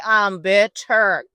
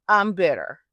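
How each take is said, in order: First: BITTER drawn out slowly and louder; "bitter" stressed, slow and forceful; emphatic BITTER. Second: Said in the usual way. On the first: Acted. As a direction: lean hard on BITTER, stretching both syllables. Repeats it emphatically.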